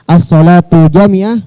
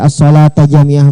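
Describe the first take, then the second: First: The first word ends in a u vowel. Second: The first word ends in an a vowel. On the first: "juga boleh" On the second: "boleh dibaca tu, boleh dibaca tak"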